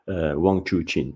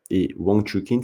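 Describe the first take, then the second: First: Wang Chuqin slowed down, "choo-chin" with a ch sound; slowly retry Wang Chuqin with "ch" for the q; careful correction. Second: Wang Chuqin said "wang tookin" with a hard t; first try at name. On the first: Vlogger correcting the name, slow and careful. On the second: Vlogger introducing a player, Frenchified name. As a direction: say Wang Chuqin as "too-keen", French style. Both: Real, not acted.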